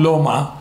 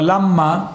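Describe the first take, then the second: First: The first vowel sounds like 'o'. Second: The first vowel sounds like 'a'. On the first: The speaker calls it wrong. "אבל לא אומרים לא מה" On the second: The speaker calls it right. "אז הוא קמץ גדול"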